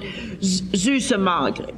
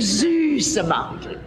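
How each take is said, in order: First: It is said flatly, without warmth or feeling. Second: It is said tenderly, with warm feeling. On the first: The listener is left unsure what is meant. The speaker calls it wrong. "you will not say" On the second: The affection is clearly felt. The speaker calls it right. "You will say süße Margaret"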